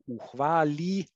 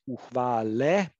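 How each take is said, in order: First: The final vowel is raised toward i. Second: The final vowel is a full e. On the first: "the raising, or as it is often referred to, the reduction of vowels in unstressed syllables" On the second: "instead of"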